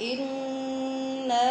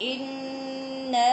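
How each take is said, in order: The two takes are said the same way.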